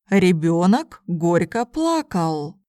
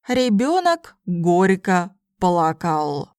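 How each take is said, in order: First: It is spoken at a normal conversational pace. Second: It is spoken slowly and carefully. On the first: "then in normal speed Russian" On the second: "first in slow Russian"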